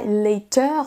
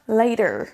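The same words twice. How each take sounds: First: The final R is a throaty French R. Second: The final R is a curled American R. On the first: "On ne dira pas later, comme ça" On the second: "Les Américains vont rouler le R"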